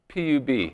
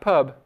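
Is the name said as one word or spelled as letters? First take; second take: letters; one word. First: It is spelled out letter by letter. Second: It is said as a single word. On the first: The speaker calls it right. "which stands for Public Urban Bar" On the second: The speaker calls it wrong. "not pub"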